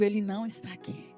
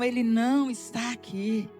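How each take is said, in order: First: It is said in a calmer, plainer way. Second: It is said forcefully, with strong conviction.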